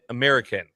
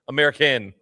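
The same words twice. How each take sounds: First: The last syllable is not stressed. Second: The last syllable carries extra stress. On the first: The speaker calls it wrong. "I still don't know the right way to say this" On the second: The speaker calls it right. "Just put a little extra emphasis on the "in.""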